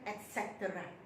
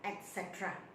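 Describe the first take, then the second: First: It is said in an American accent. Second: It is said in a British accent. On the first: "kalau American" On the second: "in British English"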